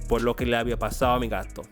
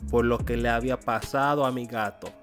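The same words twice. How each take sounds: First: The d sound in pasado is dropped. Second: The d sound in pasado is pronounced.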